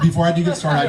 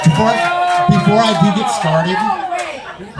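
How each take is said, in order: First: Said in the usual way. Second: High, drawn-out shout of the opener; loud mock restart. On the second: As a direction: belt it out slow like a grand announcement. Comic restarts her opener loudly.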